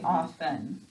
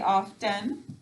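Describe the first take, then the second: First: The t sound is left silent in the middle. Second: The t sound is pronounced in the middle. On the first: It is said this way in normal speech. "When we're talking, we say often" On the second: It is said this way to help spelling. "To spell it, we say often"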